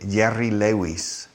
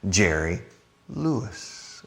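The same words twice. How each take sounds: First: The first sound of Jerry is soft, not ch-like. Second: The first sound of Jerry is ch-like. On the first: This is how Spanish speakers say it. "In Sp- Spanish people say Jerry Lewis" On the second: This is the English way to say it. "Más che"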